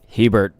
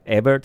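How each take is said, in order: First: The name is said in an English way. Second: The name is said in a non-English way. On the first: The speaker calls it wrong. "I'm a little more uh, Anglo pronouncing it like that" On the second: The speaker calls it right. "Is that how I would say it?"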